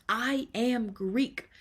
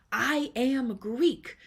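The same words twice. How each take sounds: The two takes are said the same way.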